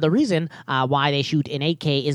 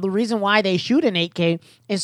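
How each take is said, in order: First: It is read in a put-on cartoon scientist voice. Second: It is read in a normal speaking voice.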